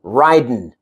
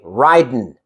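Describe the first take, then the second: No difference in how they are said.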